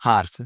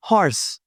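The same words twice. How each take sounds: First: हॉर्स with an open "aa", lower pitch; mispronunciation. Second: हॉर्स with a rounded "o", higher pitch; correct pronunciation. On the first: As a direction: say हॉर्स as "haars". (हॉर्स को "हार्स" बोलें) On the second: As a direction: say हॉर्स as "hors". (हॉर्स में गोल "ऑ") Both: Shown as a demonstration. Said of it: "no, no, no".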